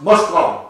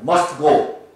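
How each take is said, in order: First: It is said quickly, run together. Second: It is said at a normal, slower pace.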